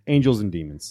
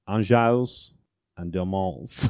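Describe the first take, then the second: First: It is said in a plain English accent. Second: It is said in a French accent.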